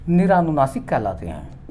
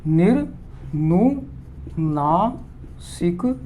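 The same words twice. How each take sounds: First: Said in the usual way. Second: निरनुनासिक stretched out very slowly, without the आ after र; teacher correcting निरानुनासिक to निरनुनासिक; slow corrected form. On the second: Shown as a demonstration. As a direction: correct yourself by saying निरनुनासिक slowly and carefully.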